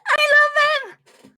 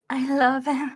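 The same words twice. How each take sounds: First: It is said in a creepy, energized way. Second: It is said subtly and calmly.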